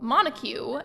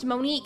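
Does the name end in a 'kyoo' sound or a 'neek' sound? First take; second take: kyoo; neek. First: It has three syllables and ends in 'kyoo'. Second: It has two syllables and ends in 'neek'. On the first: The speaker calls it wrong. "I would pronounce it like Monacue" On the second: The speaker calls it right. "that name is pronounced Monique"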